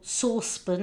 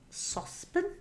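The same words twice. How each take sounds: First: It is said the English way. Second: It is said the Welsh way.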